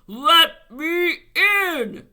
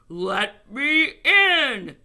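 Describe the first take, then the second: First: It is read in a somewhat stronger voice. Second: It is read in a plain, ordinary voice.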